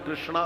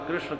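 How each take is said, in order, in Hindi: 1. नाम के अंत में एक लंबा 'aa' स्वर जुड़ा है। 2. नाम के अंत में कोई लंबा स्वर नहीं है।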